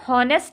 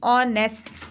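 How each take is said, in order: First: The word starts with an h sound. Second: The word starts with a vowel sound. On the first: The speaker calls it wrong. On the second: The speaker calls it right.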